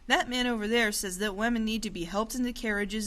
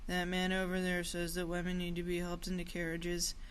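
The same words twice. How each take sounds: First: It is read in a passionate, animated voice. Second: It is read in a flat, monotonous voice. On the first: The speaker calls it right. "I would say it with a passionate, animated tone" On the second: The speaker calls it wrong. "I definitely wouldn't read it aloud monotonously"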